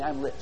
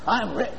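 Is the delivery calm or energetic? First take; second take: calm; energetic. First: It is said with ordinary, moderate energy. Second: It is said with more energy and force. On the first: "Say this with me" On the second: "Say it with a little bit more spunk"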